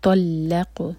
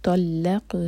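No difference in how they are said.

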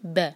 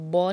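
First: The letter is said light and thin. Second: The letter is said heavy with a full mouth. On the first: The speaker calls it right. "با کیونکہ لائٹ لیٹر ہے" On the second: The speaker calls it wrong. "اس کو با نہیں کہنا"

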